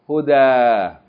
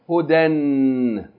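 First: The word ends with a long a vowel. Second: The word ends with an n sound. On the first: Reading stops at the word. "We stop" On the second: Reading continues after the word. "We keep reading"

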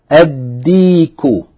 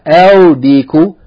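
First: The article's l blends into the following d. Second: The article's l is clearly pronounced before d. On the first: The speaker calls it right. "we're not going to pronounce the lam" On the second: The speaker calls it wrong. "not al-diku"

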